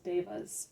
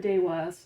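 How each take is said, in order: First: The middle consonant is a V sound. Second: The middle consonant is a W sound. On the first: "are also pronounced as Devas" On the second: "I pronounce it Dewa"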